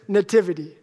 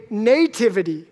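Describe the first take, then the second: First: "nativity" said nuh-TIV-ity, second syllable stressed; later accent in nativity. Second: "nativity" said NAY-tivity, first syllable stressed; long NAY in nativity. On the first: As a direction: reduce the first vowel of "nativity", stress TIV. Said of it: "She puts the accent later". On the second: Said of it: "I put the accent on the nay". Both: Shown as a demonstration.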